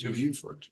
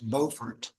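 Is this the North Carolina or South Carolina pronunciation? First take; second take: South Carolina; North Carolina. First: It uses the South Carolina pronunciation. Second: It uses the North Carolina pronunciation. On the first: The name as said in South Carolina. "But you're in South Carolina, it's Buford" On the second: The name as said in North Carolina. "If you're in North Carolina, it's Beaufort"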